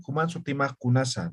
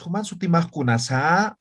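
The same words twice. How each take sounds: First: "Human sutimaj kunasa" said flat and even, falling gently, no question rise; flat intonation. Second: "Human sutimaj kunasa" with a rising, sung question tune, the wrong way. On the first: Teacher showing students the right Aymara question, flat and level. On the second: Teacher showing students the wrong intonation, rising question tune. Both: Shown as a demonstration. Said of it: "No, no entonamos".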